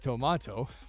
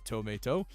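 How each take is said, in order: First: It is said with a British pronunciation. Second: It is said with an American pronunciation. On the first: "In the U K, it's tomato" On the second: "Tomato in the U S is tomato"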